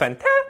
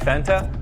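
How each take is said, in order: First: It is said in a surprised tone. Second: It is said in a neutral tone.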